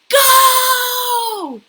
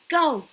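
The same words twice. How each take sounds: First: The word is spoken very loudly. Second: The word is spoken at medium volume. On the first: "very, very loud" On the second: "Then medium"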